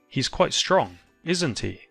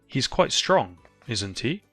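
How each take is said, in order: First: The pitch falls at the end of the tag. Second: The pitch rises at the end of the tag. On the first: The speaker is fairly certain of the answer. "Or a falling intonation" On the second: The speaker is not sure about the answer. "You can use a rising intonation"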